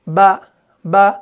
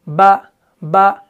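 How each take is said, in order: The two takes are said the same way.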